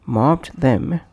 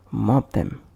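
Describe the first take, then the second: First: "Mobbed them" with the final d sounded; full form. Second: "mob them" with the d of mobbed left out; linked, d dropped. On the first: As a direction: keep a stop between b and th in "Mobbed them". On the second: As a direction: run b straight into th in "mob them". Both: Shown as a demonstration. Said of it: "pronounced as".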